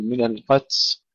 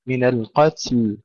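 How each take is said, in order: First: القتل ending on ت with no ل; lost final ل. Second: القتل with breathy ت then clear ل; correct القتل. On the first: Teacher warning pupils of the error, القتل cut at ت. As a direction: drop the ل from the end of القتل. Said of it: "لا نقول". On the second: Teacher giving the correction, القتل with both ت and ل. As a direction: puff the ت in القتل and finish on a sounded ل. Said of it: "نهمس التاء". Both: Shown as a demonstration.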